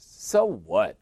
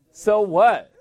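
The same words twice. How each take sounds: First: Said in the usual way. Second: Higher, louder so what; loud challenge. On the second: Shown as a demonstration. Preacher dismissing his own excuses, loud challenge. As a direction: fling it back as a dare.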